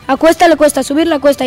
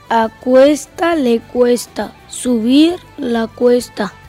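First: The sentence is spoken at a fast pace. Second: The sentence is spoken at a slow pace. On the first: "La velocidad rápida" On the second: "Con la velocidad lenta"

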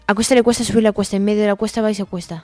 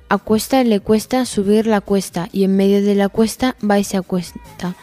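First: It is said at a fast speed. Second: It is said at a medium speed.

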